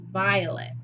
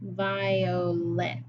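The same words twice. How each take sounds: First: Said in the usual way. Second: "violet" slowly in three beats, vi, o, let; "violet" broken apart, ending on a distinct "let"; split into syllables. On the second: Shown as a demonstration. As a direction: sound out "violet" piece by piece. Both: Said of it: "Replace the lin with let".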